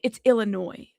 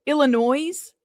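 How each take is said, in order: First: Illinois with a silent s, ill-uh-noy; correct Illinois. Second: Illinois ending in a clear z sound; Illinois with an extra S. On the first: Retold or imitated. People from Illinois correcting the host, Illinois as ill-uh-noy. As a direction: say Illinois the proper way, no s at the end. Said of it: "Don't say it". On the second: Shown as a demonstration. Host demonstrating her own habit to chat, Illinois said ill-uh-noise. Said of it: "adding an extra S".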